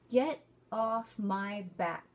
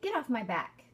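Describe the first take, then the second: First: It is said slowly and carefully. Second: It is said quickly, at natural speed.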